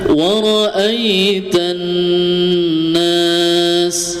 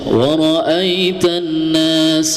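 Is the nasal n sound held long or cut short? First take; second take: held long; cut short. First: The nasal n sound is held for two beats. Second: The nasal n sound is rushed and cut short. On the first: The speaker calls it right. "gunnah ditahan dulu dua harokat" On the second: The speaker calls it wrong. "Ada yang baca"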